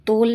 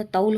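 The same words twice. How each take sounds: First: तोल with a plain o vowel, louder; wrong pronunciation. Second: तौल with an au diphthong; correct pronunciation. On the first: Teacher showing a common error, तोल with plain o. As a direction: hit तोल loudly with a simple o. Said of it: "नहीं होता". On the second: Teacher giving the correct word, तौल with au. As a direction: open the vowel of तौल into au. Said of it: "होता है". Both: Shown as a demonstration.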